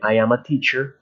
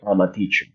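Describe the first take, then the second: First: I am is said as two full words. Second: I am is joined into one short word. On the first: "en vez de decir" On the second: "I can say"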